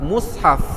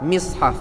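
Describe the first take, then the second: First: The first vowel is a u sound. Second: The first vowel is an i sound. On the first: "mim sad mati di depan mus" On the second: "mim sad mati di bawah mis"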